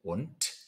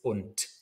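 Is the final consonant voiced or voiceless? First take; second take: voiceless; voiceless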